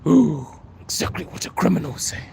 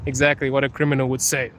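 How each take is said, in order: First: Hammed-up shock at being found out; mock scandalised. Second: Said in the usual way. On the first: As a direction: echo the accusation as if caught out. Repeats accusation in mock shock.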